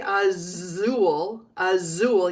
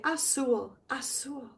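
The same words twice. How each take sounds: First: "azul" with a buzzing English Z; wrong Z sound. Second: "azul" with a soft hissed S for the z. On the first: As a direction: voice the z in "azul" as in "zoo". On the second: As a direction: say "azul" as "a-sool". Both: Shown as a demonstration. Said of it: "the Z is like an S".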